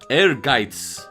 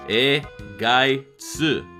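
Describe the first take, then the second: First: It is said the German way, like air-gites. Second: It is said with Japanese syllables, E-gai-tsu. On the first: "he advised me on the correct pronunciation" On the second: "it sounds similar to how it is phonetically spelled in Japanese"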